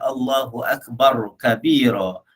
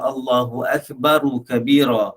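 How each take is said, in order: First: No vowel follows akbar before kabira. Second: A short u vowel follows akbar before kabira. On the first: The speaker calls it wrong. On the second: The speaker calls it right. "bacaan yang betul mestilah"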